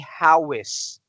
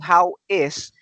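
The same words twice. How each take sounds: First: The two words are linked with a w sound. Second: The two words are said separately, without linking. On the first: The speaker calls it right. "you say how is" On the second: The speaker calls it wrong. "instead of saying how is"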